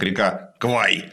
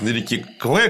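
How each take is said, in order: First: The name ends in an 'eye' diphthong. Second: The name ends in an 'eh' vowel. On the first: The speaker calls it wrong. "что неправильное, конечно, произношение, транскрипция неверная" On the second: The speaker calls it right. "что вот Костя описывает на реке Кве"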